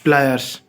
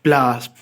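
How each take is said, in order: First: The correct form प्लायर्स with a clear "yers" ending; correct pronunciation. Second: The wrong word प्लास said as it is heard in villages; wrong pronunciation. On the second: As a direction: say प्लास the village way, short "plaas". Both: Shown as a demonstration. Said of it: "प्लास नहीं".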